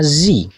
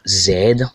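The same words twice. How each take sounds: First: The letter name is said the American way. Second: The letter name is said the British way. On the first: "le Z il est américain" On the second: "Le Z ici il est totalement pardon britannique"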